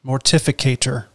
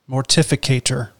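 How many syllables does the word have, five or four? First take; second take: five; five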